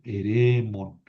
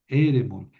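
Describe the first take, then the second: First: "Eremon" with a lengthened, stressed second syllable; accent moved forward. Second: "Eremon" with the accent kept early, on its opening E; stress on first syllable. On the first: Teacher showing students the moved accent, second-syllable stress on "Eremon". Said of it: "tengo que mover el acento". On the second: Teacher showing students the accent does not move, first-syllable stress on "Eremon". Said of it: "el acento no se mueve". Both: Shown as a demonstration.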